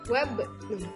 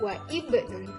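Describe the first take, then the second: First: The i vowel is dropped after wa. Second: The i vowel is pronounced after wa. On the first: The speaker calls it right. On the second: The speaker calls it wrong. "Jadi tidak wa ibnun"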